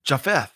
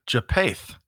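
First: "Japheth" with an F sound in the middle; corrected name pronunciation. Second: "Japath" with a plain P in the middle, no F sound; tentative attempt at "Japath", P instead of F; mispronounced name. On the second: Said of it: "I came close, maybe". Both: Real, not acted.

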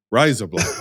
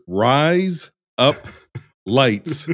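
First: "Rise up lights" joined up, sounding like "razor blades"; normal-sentence run-together. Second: "rise up lights" with a clear break between words; separated words. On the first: Host showing it in native accent, "Rise up lights" run together. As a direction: say "Rise up lights" as one casual phrase. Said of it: "just say it as you would a normal sentence". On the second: Host explaining the three words, "rise up lights" spaced out. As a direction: set out "rise", "up" and "lights" one by one. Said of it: "is to say that the three words". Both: Shown as a demonstration.

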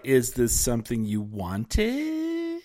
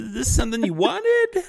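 First: Imitating strangers. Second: High squeaky scandalized version; hammed-up scandalized stranger; mock shocked asker. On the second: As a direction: say it up high and prim. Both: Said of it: "they're like".

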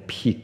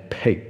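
First: "pig" with a long tense ee, like peek; wrong vowel. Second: "pig" with a lax short i, g unreleased; correct short vowel. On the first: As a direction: show the mistaken pig that sounds like peek. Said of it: "不是念pig". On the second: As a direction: model pig with a relaxed vowel, near peg. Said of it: "是念pig". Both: Shown as a demonstration.

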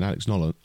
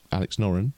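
First: "Nolan" said with an L, the wrong name; slip of the name. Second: "Noren" said with an R in the middle, the right name; corrected name. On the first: Host naming his tip and slipping on the name. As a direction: say "Nolan" by mistake for Noren. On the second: Host correcting the name of his tip. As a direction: fix it to "Noren" with an R. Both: Real, not acted.

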